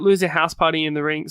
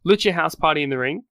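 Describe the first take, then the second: First: Loser said as LOO-zer, a slip for Lucha; accidental Loser instead of Lucha; slip of the tongue. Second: Lucha said as LOO-cha, corrected; careful self-correction to Lucha; corrected name. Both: Real, not acted.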